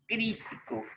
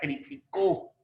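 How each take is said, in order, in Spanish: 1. El acento está en la primera sílaba. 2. El acento está en la última sílaba. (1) "Crítico sí lleva el acento en la I" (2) "Lleva en la O"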